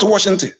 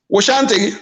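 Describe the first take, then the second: First: It is said with an English-style pronunciation. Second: It is said with an Igbo-style pronunciation. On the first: The speaker calls it wrong. "not, not Washington" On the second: The speaker calls it right. "pay attention to the pronunciation"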